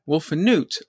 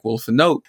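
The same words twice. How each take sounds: First: The last syllable has the vowel of boot. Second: The last syllable has the vowel of note. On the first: The speaker calls it right. "that makes sense because boot, root" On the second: The speaker calls it wrong. "it would have been pronounced like Wolfnut, as an N-O-T-E"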